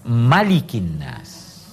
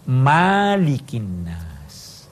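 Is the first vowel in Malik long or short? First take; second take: short; long. First: The first vowel of Malik is short. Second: The first vowel of Malik is long. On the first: It names God as the king of people. The speaker calls it right. "Dia harus dibaca Malikin Nas" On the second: It names God as the owner of people. The speaker calls it wrong. "surah ini tidak boleh dibaca Malikin Nas"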